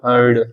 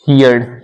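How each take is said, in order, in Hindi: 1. इसका स्वर 'her' के स्वर जैसा सुनाई देता है। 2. इसका स्वर 'here' के स्वर जैसा सुनाई देता है। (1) "आप इसको बोलो कैसे, हर्ड बोलो" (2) "ये थोड़ा सा गलत उसका उच्चारण हो जाएगा"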